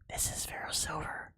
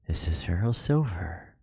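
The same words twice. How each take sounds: First: It is spoken in a whisper. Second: It is spoken in a normal voice. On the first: The speaker calls it right. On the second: The speaker calls it wrong.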